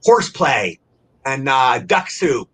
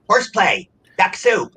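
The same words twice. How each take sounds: First: Said in the usual way. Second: Reciting practice words a bit higher, one by one; speech drill recital. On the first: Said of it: "I'm trying to think of words". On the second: Shown as a demonstration. Rehab patient showing his vocal coach drill, raised recital. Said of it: "I had to keep saying them over and over".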